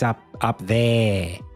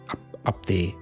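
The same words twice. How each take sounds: First: It is said in an Australian accent. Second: It is said in a clipped South African accent. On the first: "But in Australia" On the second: "the South Africans have that as well"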